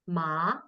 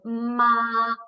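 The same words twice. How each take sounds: First: It is said with the second tone. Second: It is said with the first tone. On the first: "ma is second tone" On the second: "ma is first tone"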